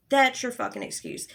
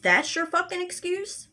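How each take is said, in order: First: "That's" hit hard, then falling through "excuse"; disgusted restatement, pitch dropping after a punched "That's"; indignant verdict. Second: "that's your fucking excuse" pitched high, rising to the end; outraged disbelief, "excuse" lifted high; incredulous question. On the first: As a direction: land "That's your fucking excuse" as a falling statement. Same words again, as verdict. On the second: Incredulous repeat of his excuse. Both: Real, not acted.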